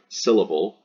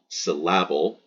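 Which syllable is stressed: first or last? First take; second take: first; last. First: The stress is on the first syllable. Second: The stress is on the last syllable. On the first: The speaker calls it right. "instead of the syll" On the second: The speaker calls it wrong. "putting the stress on the able"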